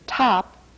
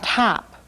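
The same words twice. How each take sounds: First: The consonant is made without nasal snorting. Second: The consonant is made with audible nasal snorting.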